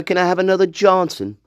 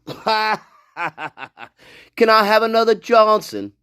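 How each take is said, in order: First: Said in the usual way. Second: Slow, laughing through the quote; slowly laughing out the line; laughing mock quote. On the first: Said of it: "No, it should be Braden". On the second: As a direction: drag it out while cracking up.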